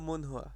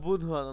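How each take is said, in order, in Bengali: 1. শব্দটি m-এর মতো ধ্বনি দিয়ে শুরু হয়। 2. শব্দটি b-এর মতো ধ্বনি দিয়ে শুরু হয়। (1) "এখানে হলো মন হওয়া" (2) "এখানে কিন্তু আবার বুধ হওয়া না"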